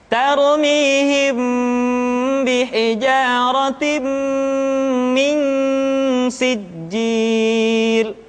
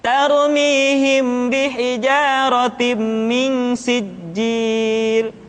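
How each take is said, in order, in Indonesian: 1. Bunyi sengau ditahan panjang dan tidak tergesa-gesa. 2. Bunyi sengau dipotong pendek dan dibaca tergesa-gesa. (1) "tahan suaranya, tidak boleh tergesa-gesa" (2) "Kita tidak boleh membaca seperti ini ... dibaca secara tergesa-gesa"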